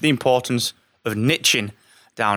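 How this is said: Niching is said the American way.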